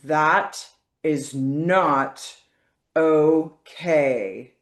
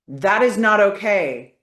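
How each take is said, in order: First: The phrase is said slowly and deliberately. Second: The phrase is said at a normal speed. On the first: "when you slow it down" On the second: "saying it a few times the normal speed"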